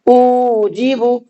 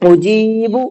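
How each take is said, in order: First: The first syllable u is drawn out. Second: The middle syllable ji is drawn out. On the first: The speaker calls it wrong. "हमजा खिंच गया, गलत" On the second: The speaker calls it right. "सिर्फ जीम को खींचना है, ठीक है। उजीबु ये सही है"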